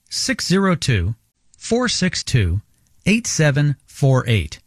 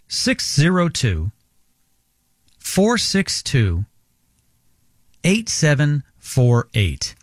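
First: The number is read at normal pace. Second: The number is read more slowly.

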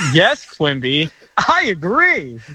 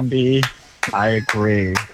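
First: It is said with more enthusiasm. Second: It is said flatly, without enthusiasm.

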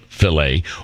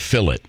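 First: It is said in an American accent. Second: It is said in a British accent.

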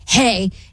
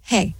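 First: It is said in an angry tone. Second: It is said in a flat monotone.

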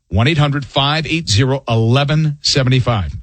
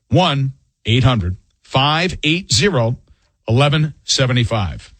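First: The number is read at normal, faster speed. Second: The number is read slowly.

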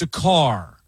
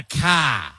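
First: It is said in a standard American accent. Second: It is said in a Boston accent.

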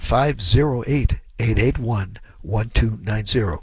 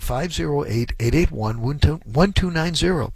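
First: The number is said at a slower pace. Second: The number is said at a quicker pace.

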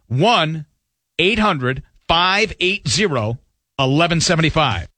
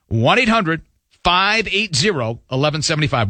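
First: The number is read slowly. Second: The number is read at normal speed.

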